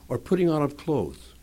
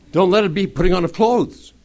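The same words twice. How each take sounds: First: Said in the usual way. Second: Loud, high, emphatic repeat; insistent repeat. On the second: Real, not acted. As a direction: hammer it home, louder and higher. Insistent repeat after "Did you hear me.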